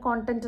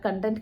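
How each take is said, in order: First: The first vowel sounds like 'con'. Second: The first vowel sounds like 'cun'. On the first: The speaker calls it right. "ശരിക്കും പറയുന്നത് കോണ്ടന്റ് എന്നുള്ളതാണ്" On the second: The speaker calls it wrong. "എല്ലാവരും കണ്ടന്റ് ... എന്നാണ് പറഞ്ഞത്"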